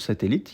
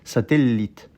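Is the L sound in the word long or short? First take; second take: short; long. First: The L sound is short and ordinary. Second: The L sound is held long and stressed. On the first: "normalement le mot satellite, il n'y a aucune insistance" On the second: "pour appuyer sur le fait qu'il y a deux L"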